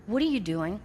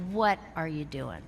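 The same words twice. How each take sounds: First: Said in the usual way. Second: Lower, pointed question with a glare; a hint of a stern mentor; stern Bob. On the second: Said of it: "he said it in that voice".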